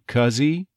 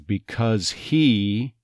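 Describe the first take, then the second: First: The H is dropped and the words are linked. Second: Both words are said fully with the H. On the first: "it would be likely to say cuzzy" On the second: "if this phrase was because he"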